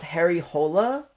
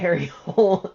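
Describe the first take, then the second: First: The surname ends in an extra vowel syllable. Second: The surname is one syllable, like 'hole'. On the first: This is the name's original pronunciation. "I think it's actually pronounced Harry Hola" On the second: This is how the movie says the name. "they pronounce it Harry Hole in the movie"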